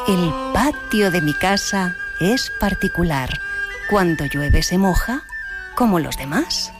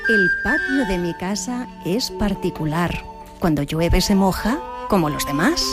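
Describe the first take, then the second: First: It is said more slowly. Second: It is said at normal speed.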